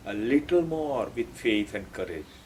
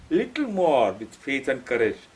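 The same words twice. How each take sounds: First: Soft, low, tender urging; loving encouragement. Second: Said in the usual way. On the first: Retold or imitated. Sri Aurobindo lovingly urging seekers on, soft and low. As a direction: coax gently, as a loving guide. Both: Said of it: "Very lovingly says".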